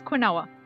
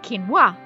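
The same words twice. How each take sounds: First: The word is read out letter by letter. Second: The word is said with its usual pronunciation. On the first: The speaker calls it wrong. "I thought it was quinoa, which makes perfect sense when you think about how it's spelt" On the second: The speaker calls it right. "When I first read the word quinoa"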